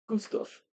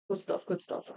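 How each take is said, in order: First: Soft voiceless murmur of "Good stuff"; muttered approval. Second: Quieter voiceless repeat of "Good stuff"; muttered approval. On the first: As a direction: whisper "Good stuff" to herself. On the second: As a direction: murmur "Good stuff, good stuff" to herself. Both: Real, not acted. Crafter praising her own work under her breath. Muttering to herself while working.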